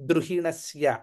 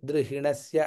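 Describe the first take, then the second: First: The r after d is said firmly, with pressure. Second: The r after d is said softly, barely stressed. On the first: The speaker calls it right. "పట్టుబడి చదువుతున్నాం" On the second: The speaker calls it wrong. "అలా మృదువుగా చదివి"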